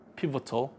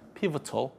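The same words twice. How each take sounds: Both takes have the same delivery.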